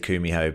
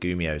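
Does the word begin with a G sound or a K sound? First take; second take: K; G. First: The word begins with a K sound. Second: The word begins with a G sound. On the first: "I think we're supposed to say Kumio" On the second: "it said Kumio somewhere with a G"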